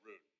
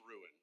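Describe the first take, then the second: First: The word is said quickly and lazily. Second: The word is said slowly and carefully. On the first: "I say it quickly, so I say ruin" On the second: "I know it's ruin"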